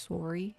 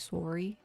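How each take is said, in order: First: It is said with a Minnesotan O sound. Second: The same.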